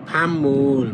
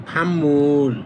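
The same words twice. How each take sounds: Both takes have the same delivery.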